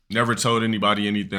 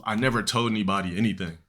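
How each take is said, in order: First: "Never told anybody anything" faster, with NEVER hit hard; insisting he kept his YouTube plans secret, fast and emphatic; emphatic repeat. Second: Said in the usual way. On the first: Real, not acted. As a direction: rattle it off fast to drive it home.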